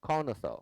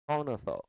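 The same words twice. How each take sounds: No difference in how they are said.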